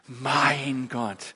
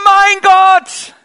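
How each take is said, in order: First: It is said tenderly, full of feeling. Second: It is said desperately, as in great need.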